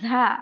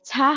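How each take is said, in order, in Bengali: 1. প্রথম ব্যঞ্জনে গুঞ্জন আছে। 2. প্রথম ব্যঞ্জনে কোনো গুঞ্জন নেই। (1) "ঝির আওয়াজ বিশিষ্ট" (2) "ঝা হবে না"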